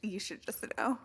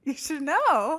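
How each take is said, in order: First: Half-whispered, pointed reply; soft, whispery comeback; hushed retort. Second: Loud, high comeback; louder, higher, pointed insistence; emphatic retort. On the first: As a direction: say it under your breath, pointedly. Mock-grumpy reply to friend's question. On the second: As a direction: raise your voice and pitch to insist. Repeats the retort, much louder. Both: Pretend.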